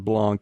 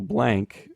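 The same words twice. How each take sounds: First: The name is said with a French accent. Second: The name is said in a plain English way.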